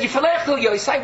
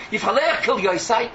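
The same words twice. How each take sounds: First: Quoting Iyov. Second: Said in the usual way. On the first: Retold or imitated. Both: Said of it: "But he said".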